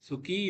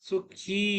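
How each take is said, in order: First: The final vowel is short. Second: The final vowel is long and drawn out. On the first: The speaker calls it wrong. "இல்ல" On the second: The speaker calls it right. "ஈ சத்தம் இழுத்து இழுத்து சொல்லணும்"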